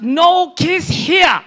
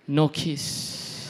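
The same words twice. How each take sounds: First: High, very loud, drawn-out refusal; shouted refusal. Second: Understated, brief refusal; plain refusal. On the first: Grocery packer fending off mom, mock outraged shout. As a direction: shout it slowly, pitch way up. Man refuses again, escalating. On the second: Grocery packer turning down mom's kiss, understated refusal. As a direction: turn down the kiss in your usual pitch. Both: Retold or imitated.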